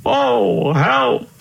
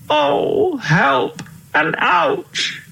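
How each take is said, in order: First: High, alarmed call for help; hammed-up high cry for help; mock panicked cry. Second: Very high, slow, drawn-out wail; hammed-up high wail of help and ouch; wailing cry. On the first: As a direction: squeal it like a lost old king. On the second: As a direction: stretch the whine out like a worn-out old king. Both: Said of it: "cried the king".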